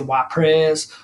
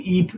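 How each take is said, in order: First: It is said with an American pronunciation. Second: It is said with a Belgian pronunciation. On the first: "the Americans say Wapres" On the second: "they they say Ypres"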